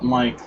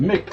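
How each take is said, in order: First: The first vowel is a long 'i' sound. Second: The first vowel is a short 'i' sound. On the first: "like American" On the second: "like Irish"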